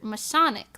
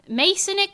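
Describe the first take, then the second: First: The first syllable sounds like 'my'. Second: The first syllable sounds like 'may'. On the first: "Masonic like my Sonic" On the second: "Masonic like Jasonic"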